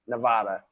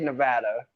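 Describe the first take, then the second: First: The middle vowel sounds like 'ah' in 'father'. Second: The middle vowel sounds like 'a' in 'cat'. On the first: This is how outsiders say it. The speaker calls it wrong. "I don't know how you're getting this ah in the middle of it, but that ah needs to go" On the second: This is how locals say it. The speaker calls it right. "I say Nevada"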